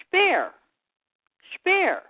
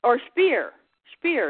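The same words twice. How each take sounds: First: Speer said "shpair", the S as sh, higher; German "Speer" with a sh at the start; German pronunciation. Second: Speer said as English "speer", rhymes with peer; plain English Speer; Anglicised name. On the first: Coach the listener on German Speer, said as shpair. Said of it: "is pronounced". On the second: Give the usual English Speer, a long ee sound. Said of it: "It's not even A". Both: Shown as a demonstration.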